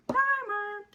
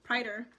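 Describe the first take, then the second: First: "Primer" said higher, as "pamə" with no r; mock posh. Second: Said in the usual way. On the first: Shown as a demonstration. Correcting herself on the product name, mock fancy "Primer". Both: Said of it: "correct, and set primer".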